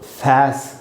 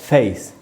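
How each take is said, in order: First: The vowel is a short a sound. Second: The vowel is a long ay sound. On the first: The speaker calls it wrong. "बैट की तरह फैस नहीं पढ़ सकते" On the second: The speaker calls it right. "इसलिए इसको पढ़ा जाएगा फेस"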